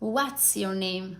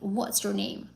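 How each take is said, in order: First: The first sound is said the Turkish way. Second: The first sound is said the standard English way. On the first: The speaker calls it wrong. "Turkish people sometimes say, ... That's a bit wrong" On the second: The speaker calls it right. "What is the correct pronunciation?"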